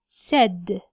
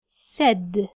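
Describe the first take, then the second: No difference in how they are said.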